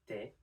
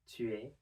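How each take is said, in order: First: The U vowel of 'tu' is dropped. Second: The U vowel of 'tu' is pronounced. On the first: This is the quick, informal form. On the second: This is the careful, formal form.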